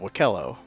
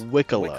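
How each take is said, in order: First: The name does not rhyme with piccolo. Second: The name rhymes with piccolo. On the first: This is the reading most English speakers would give. The speaker calls it wrong. "we've been pronouncing it Wakello because that's how it's spelled" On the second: This is the official pronunciation. The speaker calls it right. "Like a piccolo"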